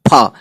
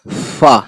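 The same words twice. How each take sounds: First: The lips close, then release a puff of air. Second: The lips stay apart, letting air flow out gently. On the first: "फा बोलने के लिए होंठों को चिपका लेना होता है, फिर हवा एकदम से फेंकनी होती है" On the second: "फा में होंठ बिल्कुल नहीं मिलाते, हल्का सा हवा निकाल के"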